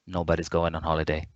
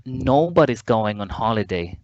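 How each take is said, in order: First: NOBODY'S GOING ON HOLIDAY low, quick monotone; no musicality. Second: NOBODY'S lifted in a rise and fall; musical rhythm. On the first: Teacher showing what not to do, NOBODY'S GOING ON HOLIDAY fast and toneless. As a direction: rush NOBODY'S GOING ON HOLIDAY softly on one note. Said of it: "And not, "I'm so happy," or". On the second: Teacher showing English musicality, NOBODY'S lilting up and down. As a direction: swing up on NOBODY'S, then step down to HOLIDAY. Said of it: "There is a musicality". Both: Shown as a demonstration.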